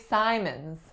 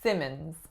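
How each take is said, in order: First: The first vowel sounds like 'eye'. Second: The first vowel sounds like 'ih'. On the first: The speaker calls it wrong. "A lot of my clients for this last name say Simons" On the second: The speaker calls it right. "typically when there are two M's, we say Simmons"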